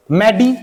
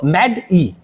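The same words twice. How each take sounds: First: मैडी run as mae-dee; wrong syllable break. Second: मैड ई with a gap after the d; correct syllable break. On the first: Teacher contrasting two ways, मैडी as mae-dee. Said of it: "एक तो आप ऐसे बोलो". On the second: Teacher contrasting two ways, मैड ई as med, ee. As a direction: close मैड on d, then ई separately. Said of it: "एक आप बोलो मैड ई". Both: Shown as a demonstration.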